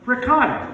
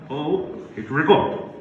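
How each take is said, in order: First: Ricotta said as ree-COT-ta, full Italian vowels; correct ricotta. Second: Ricotta said as RICO, softened and clipped; mock realization. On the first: Shown as a demonstration. Comic insisting on proper Ricotta, emphatic. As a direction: say Ricotta crisply, stressing the middle syllable. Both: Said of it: "I said".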